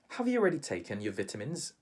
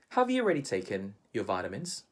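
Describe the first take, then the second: First: It is said with a British English pronunciation. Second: It is said with a Filipino English pronunciation. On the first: "But how do Brits pronounce that word?" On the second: "We would say"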